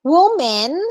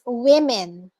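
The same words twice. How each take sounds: First: Woman said as "wu-men"; woman modeled as the mistaken "WOO-men"; wrong pronunciation demo. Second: Women said as "wi-men"; women modeled slowly as "WIM-en"; correct pronunciation demo. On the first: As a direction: say woman with an oo in the first syllable. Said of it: "it's not woman". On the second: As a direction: say women slowly with a short i first. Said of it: "it's women". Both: Shown as a demonstration.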